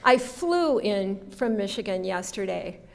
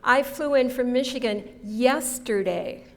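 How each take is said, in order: First: The word flew carries the main stress. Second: The word yesterday carries the main stress. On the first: The trip was not made by car. "What did I not do? I didn't drive" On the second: The trip was not made today. "Not today"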